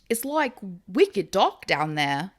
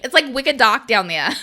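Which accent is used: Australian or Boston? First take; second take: Australian; Boston. First: It is said in an Australian accent. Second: It is said in a Boston accent. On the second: "because Boston would be like"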